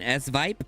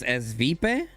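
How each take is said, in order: First: The name has an English pronunciation. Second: The name has a Spanish pronunciation. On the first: The speaker calls it wrong. "I was saying Esvipe" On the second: The speaker calls it right. "she said it's pronounced in Spanish"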